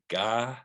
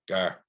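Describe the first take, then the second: First: The name ends without an r sound. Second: The name ends with a clear r sound. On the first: This is how English people say the name. The speaker calls it wrong. "It's like ga with with English people" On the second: This is how people over here say the name. The speaker calls it right. "but over here it's more to pronounce the or Gar"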